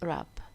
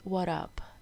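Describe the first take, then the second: First: The word begins with an R sound. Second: The word begins with a W sound. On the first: The speaker calls it right. "W is silent. It is wrap" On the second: The speaker calls it wrong. "We don't say"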